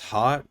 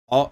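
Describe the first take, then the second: First: The word sounds like 'hot', with a t. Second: The word sounds like 'oat', without an h. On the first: The speaker calls it wrong. "It looks like it's pronounced hot" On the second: The speaker calls it right. "I believe that's how you say it"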